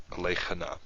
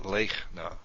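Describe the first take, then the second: First: "lechana" drawn out in three syllables; "lechana" as le-cha-na, the shva sounded; vocal shva. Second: "lechna" as two syllables, lech-na; "lechna" with no vowel after the ch; silent shva. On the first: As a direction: add a short vowel after the ch in "lechana". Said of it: "It's not lechana". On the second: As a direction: close the first syllable of "lechna" on ch, then na. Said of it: "We pronounce it lechna". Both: Shown as a demonstration.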